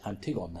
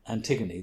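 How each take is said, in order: First: Antigone said the Greek way, "an-ti-GON-eh"; Greek pronunciation. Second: Said in the usual way. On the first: Shown as a demonstration. Adviser showing how actors said the Greek names, Antigone in authentic Greek pronunciation, "an-ti-GON-eh". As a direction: say Antigone with a short "gon" and an open "eh" ending. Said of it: "with the Greek pronunciation". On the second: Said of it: "make the Greek names strange".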